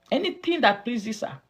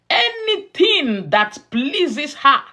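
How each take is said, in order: First: Said in the usual way. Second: Loud, high, slow preacher's emphasis; emphatic proclamation. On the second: Real, not acted. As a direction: ring out every word to the congregation, high and slow. Preacher hammers the phrase, then repeats it.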